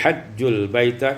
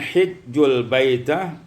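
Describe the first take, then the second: First: The first word begins with an 'a' vowel. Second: The first word begins with an 'i' vowel.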